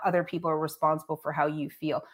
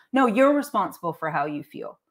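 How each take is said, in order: First: Said in the usual way. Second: Firm correction leaning on "you're"; stress on you're. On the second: Real, not acted. Vlogger rebutting those who blame others for their feelings, stressed "you're".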